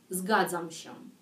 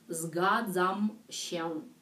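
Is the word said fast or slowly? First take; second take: fast; slowly. First: The word is said quickly. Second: The word is said slowly and carefully.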